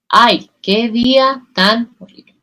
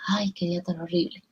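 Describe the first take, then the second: First: The phrase is said calmly and softly. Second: The phrase is said in a lowered voice. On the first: The speaker calls it right. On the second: The speaker calls it wrong.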